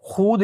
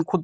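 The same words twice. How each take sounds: First: खुद with a long oo, khood; read as written. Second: खुद with a short u, khud; read as spoken. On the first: Teacher shows the written form, long khood. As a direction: stretch the vowel in the first खुद. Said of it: "लिखा जाता है". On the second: Teacher shows the read form, short khud. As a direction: keep खुद short and quick. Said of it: "पढ़ा जाता है". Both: Shown as a demonstration.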